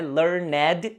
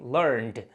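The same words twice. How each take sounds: First: The ending is said as a separate syllable. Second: The ending joins the word as one syllable. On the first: The speaker calls it wrong. "não é learned" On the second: The speaker calls it right. "e sim learned"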